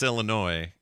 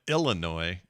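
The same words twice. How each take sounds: First: The word has its usual stress pattern. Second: The word has an odd, misplaced stress. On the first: The speaker calls it right. "You're right that it's Illinois" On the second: The speaker calls it wrong. "but you went Illinois"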